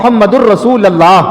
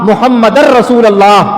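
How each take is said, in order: First: 'Muhammad' takes 'u', 'Rasul' takes 'a'. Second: Both words are followed by an 'a' vowel. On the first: "हमारा दुरुस्त नहीं है। हम कहते हैं" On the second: "ये भी गलत है।"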